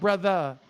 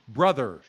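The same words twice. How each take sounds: First: The word ends with an uh sound, no r. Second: The word ends with a clear r sound. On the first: It is condescending. The speaker calls it wrong. "Don't put the uh on the end of that" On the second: It is a respectful form of address. The speaker calls it right. "Keep the R on it"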